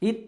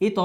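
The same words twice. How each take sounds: First: "ইত" stopped on the final ত; without qalqalah. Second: "ইত" with ত released into a short "to"; qalqalah bounce. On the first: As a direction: end "ইত" closed, no echo after ত. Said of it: "হবে না কিন্তু". (কলকলা ছাড়া "ইত") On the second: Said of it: "উচ্চারণ হবে কি?". (ধাক্কা দিয়ে "ইত") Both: Shown as a demonstration.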